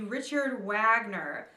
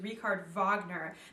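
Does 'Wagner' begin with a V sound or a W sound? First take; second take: W sound; V sound. First: Wagner begins with an English W sound. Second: Wagner begins with a V sound. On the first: The speaker calls it wrong. "if you look at it and you would pronounce it uh, in English, it'd be Richard Wagner" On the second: The speaker calls it right. "They pronounce it the way the Germans would, which is Richard Wagner. The W sounds like a V in German"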